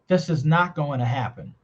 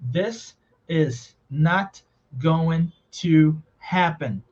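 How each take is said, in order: First: The words run together at natural speed. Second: Each word is said slowly and separately. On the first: "The way I say it is" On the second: "Vou ler pausadamente"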